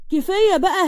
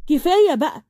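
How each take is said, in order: First: كفاية بقى higher with a rising end; pleading yell. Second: كفاية بقى with a falling end, firm; firm stop to her sister, falling; scolding. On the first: Amal scolds Layla again, higher and rising. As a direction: push the repeat up into a rising cry. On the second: Amal scolds Layla to stop, firm falling tone. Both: A narrator's reading. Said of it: "فضلت تزعق فيها".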